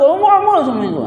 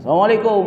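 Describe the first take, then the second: First: The voice is highest, loud and impatient. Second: The voice is low and calm.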